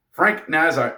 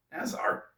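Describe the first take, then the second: First: Said in the usual way. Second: Puzzled whisper. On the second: Real, not acted. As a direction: breathe the name in disbelief. Puzzled over odd name.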